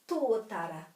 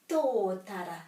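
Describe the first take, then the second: The two takes are said the same way.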